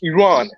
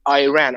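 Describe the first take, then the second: First: The first syllable does not sound like 'eye'. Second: The first syllable sounds like the word 'eye'. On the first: The speaker calls it right. "How you pronounce it is Iran" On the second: The speaker calls it wrong. "You were com- uh, like saying Iran"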